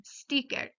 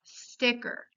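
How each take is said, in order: First: "sticker" with a Spanish ee sound, steeker; Spanish I vowel. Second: "sticker" with the short English ih vowel. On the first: Teacher giving examples of anglicisms, "sticker" with Spanish ee. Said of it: "se conserva su sonido vocálico en español". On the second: Teacher contrasting with Spanish, "sticker" with English short I. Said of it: "Es diferente a la pronunciación en inglés". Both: Shown as a demonstration.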